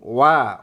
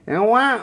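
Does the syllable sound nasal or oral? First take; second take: oral; nasal. First: The syllable comes out through the mouth. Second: The syllable is pushed through the nose. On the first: The speaker calls it right. "Harus ke mulut" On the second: The speaker calls it wrong. "Jangan ke hidung"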